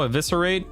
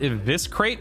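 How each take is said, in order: First: Every syllable, including the middle vowel, is said. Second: The middle vowel is dropped, giving three syllables. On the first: The speaker calls it right. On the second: The speaker calls it wrong.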